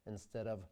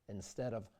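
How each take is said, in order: Both takes have the same delivery.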